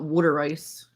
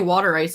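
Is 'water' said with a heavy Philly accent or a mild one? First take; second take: heavy Philly; mild. First: Water is said with a heavy Philadelphia accent. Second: Water is said with only a mild local accent. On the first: The speaker calls it wrong. "and not water ice" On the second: The speaker calls it right. "at least I say water ice"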